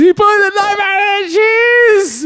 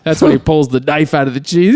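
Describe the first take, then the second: First: Cheese said in a high slow put-on voice, falling at the end; mock character voice. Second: Said in the usual way. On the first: Shown as a demonstration. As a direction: repeat the line in a much higher, slower put-on voice.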